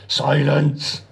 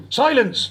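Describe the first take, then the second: First: Short, curt bark of command, not bellowed. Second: High, booming bellow of command. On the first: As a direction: snap the order out briefly. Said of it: "barked Decker". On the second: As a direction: bellow to cut the underling off. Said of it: "bellowed Decker". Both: A narrator's reading.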